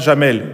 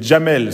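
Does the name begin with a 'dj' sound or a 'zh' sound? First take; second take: zh; dj. First: It begins with a soft 'zh' sound. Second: It begins with a hard 'dj' sound. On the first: The speaker calls it wrong. "c'est pas Jamel, ... C'est pas le J français" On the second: The speaker calls it right. "c'est le D J"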